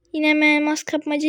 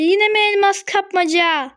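First: Said in the usual way. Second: Higher, stress on "yine", falling at the end; exasperated repeat. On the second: Real, not acted. Gamer groaning at another diamond mode, exasperated. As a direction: groan out "yine" like it's the hundredth time.

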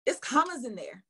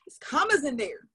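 First: Said in the usual way. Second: It's commas in there, with commas hit louder; louder, excited. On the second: Shown as a demonstration. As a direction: punch the word commas with excitement. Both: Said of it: "So that fires me up".

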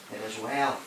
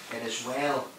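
Both takes have the same delivery.

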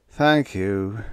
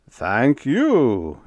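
First: Resigned, sighing thanks; sighed. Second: Loud, gratified thanks, swooping high then falling; glowing. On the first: Whitlow answering the general's over-exact countdown, sighing. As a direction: let it sink away with weary politeness. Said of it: "Whitlow sighed". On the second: General praised for his efficiency, glowing. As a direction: bask in the compliment, big and delighted. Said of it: "General Webb glowed". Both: A narrator's reading.

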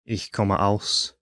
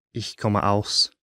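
The two takes are said the same way.

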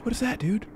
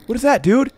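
First: Soft, hushed nervous question. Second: Said in the usual way. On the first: Real, not acted. Nervous player whispering at something strange in the dark. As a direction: ask it under your breath, wary.

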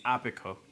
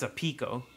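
First: "Apico" stressed on the first syllable, short A; "Apico" with the weight up front; chosen pronunciation. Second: "a Pico" stressed on PEE; "a Pico" with the weight on the middle syllable; alternative pronunciation. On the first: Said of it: "I think it's Apico". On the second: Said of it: "I doubt it's a Pico". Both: Shown as a demonstration.

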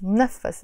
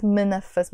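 First: منفس with a very fast m straight into the n, mnɛfəs; منفس, clip the m and glide right on; correct pronunciation. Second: منفس with a full vowel after the m, mə-nə-fəs; wrong pronunciation. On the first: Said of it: "very fast". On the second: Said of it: "we will pronounce it not منفס". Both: Shown as a demonstration.

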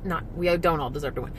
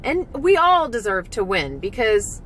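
First: Softer, faster, a low aside; hurried correcting aside, quieter; quick quiet self-correction. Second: Said in the usual way. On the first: Real, not acted. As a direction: take it back under your breath.

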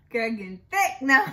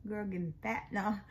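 First: Louder, laughing reframe; playful correction. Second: Said in the usual way. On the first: Shown as a demonstration. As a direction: upgrade the word cheekily.

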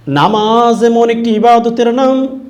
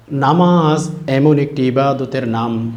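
First: High, loud and drawn out; raised preaching cry. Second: Said in the usual way. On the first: Real, not acted. Preacher proclaiming what prayer is, raised preaching cry. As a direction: proclaim it slowly at the top of the voice.

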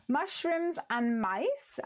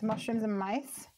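First: Slow, savoured reading of the name, a touch higher; drawn out. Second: Said in the usual way. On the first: Shown as a demonstration. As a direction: linger on "Mushrooms" and stretch it out. Reads stamp set name aloud.

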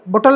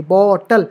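First: बॉटल with बॉ cut short, like "botal"; बॉटल said with a short, weak first vowel; wrong unstressed first syllable. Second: बॉ in बॉटल long and stressed; बॉटल with a drawn-out first vowel; stress on first syllable. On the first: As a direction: rush over the बॉ of बॉटल. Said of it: "बॉटल नहीं बोलेंगे". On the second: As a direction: stretch the बॉ of बॉटल, drop the टल. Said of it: "high pitch है". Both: Shown as a demonstration.

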